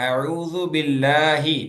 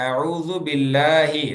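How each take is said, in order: Both takes have the same delivery.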